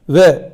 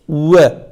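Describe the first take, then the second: First: It starts with a plain v, lips not rounded. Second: It starts with lips pushed forward, like w. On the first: The speaker calls it wrong. "Yani ve diye şeklinde değil" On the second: The speaker calls it right. "dudaklarımızı öne atıyoruz"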